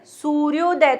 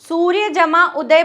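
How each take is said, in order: First: The words merge into one, the vowels fusing. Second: The two words are said apart, sounds unchanged. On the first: "तो देखो आपकी ध्वनि में change आया" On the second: "सूर्य जमा उदय बोल रहे हैं"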